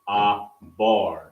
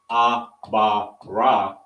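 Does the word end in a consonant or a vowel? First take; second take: consonant; vowel. First: It ends on a consonant sound. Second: It ends with a final vowel sound. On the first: The speaker calls it right. "you would say ah bar, and you would just connect the last two" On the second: The speaker calls it wrong. "instead of saying ah ba ra"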